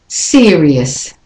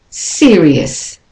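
No difference in how they are said.

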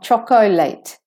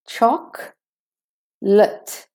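First: The middle vowel is pronounced as a full syllable. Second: The middle vowel is dropped, giving two syllables. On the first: The speaker calls it wrong. "Not chocolate" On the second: The speaker calls it right. "The O is missing"

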